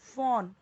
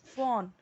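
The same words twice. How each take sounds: No difference in how they are said.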